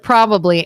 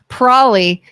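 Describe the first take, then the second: First: It is said with a standard pronunciation. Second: It is said with a Kentucky pronunciation. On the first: "instead of probably" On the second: "in Kentucky, people say probably"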